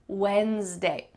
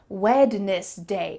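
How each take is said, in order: First: The D is silent, not pronounced at all. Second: Every letter is sounded, including the D. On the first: This is how it is said in conversation. "we never say the D" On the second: It helps with spelling the word. "as if it were said every single letter"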